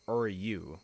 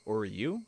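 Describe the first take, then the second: First: The name ends in a yu sound, Oryu. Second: The name ends in a yu sound, Oryu.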